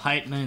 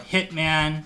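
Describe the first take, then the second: First: The first syllable sounds like 'height'. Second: The first syllable sounds like 'hit'. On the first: The speaker calls it right. "it's like [name]" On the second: The speaker calls it wrong. "The most they ever like mispronounced my name was like Hitman"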